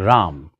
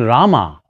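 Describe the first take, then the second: First: The word ends with a consonant. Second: The word ends with a final vowel. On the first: The speaker calls it right. "start saying Ram" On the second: The speaker calls it wrong. "Instead of saying Rama"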